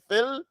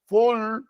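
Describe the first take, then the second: First: The vowel is said with spread, unrounded lips. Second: The vowel is said with rounded, forward lips. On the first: The speaker calls it right. "say fil usbur" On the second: The speaker calls it wrong. "Don't say full, full, because you can't say fee"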